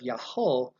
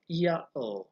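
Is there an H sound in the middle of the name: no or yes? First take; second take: yes; no. First: The name is said with an H sound. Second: The name is said without an H sound. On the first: This is the Hebrew form of the name. "instead of Yahweh" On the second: This is the Greek form of the name. "in the Greek language there was no H sound at the time"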